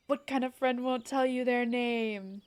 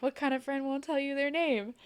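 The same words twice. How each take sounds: First: A light put-on British accent, a bit louder, pressing the question; demanding a name in a mock British accent; Joseph Joestar British accent. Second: Put-on the running line in a lightly done British accent, pitched up; British accent catchphrase. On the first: D&D player quizzing a stranger in a British accent. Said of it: "especially with the accent". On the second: Retelling the running group joke in a British accent. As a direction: replay the old joke in a breezy British accent. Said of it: "doing the Ben Diskins British accent".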